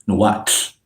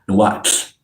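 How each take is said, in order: Both takes have the same delivery.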